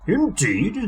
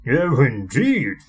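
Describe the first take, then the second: First: Said in the usual way. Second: Slow, stern "Oh, indeed"; severe. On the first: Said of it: "said the Fat Controller". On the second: A narrator's reading. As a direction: drag out "Oh, indeed" with stern disapproval. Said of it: "said the Fat Controller severely".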